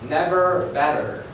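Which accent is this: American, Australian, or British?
American. It is said in an American accent. "In the United States"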